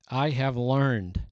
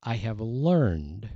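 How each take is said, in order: First: I have learned, slow, leaning on I; slow stressed reading. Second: I have learned drawn out, rising on learned; slow stressed repeat. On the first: Preacher reading the verse to the congregation, slow and stressed. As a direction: savour I have learned, each word weighted. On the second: Preacher repeating the verse's phrase, slow with a rising learned. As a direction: stretch learned and lift it at the end. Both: Shown as a demonstration. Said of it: "there's twice he said it".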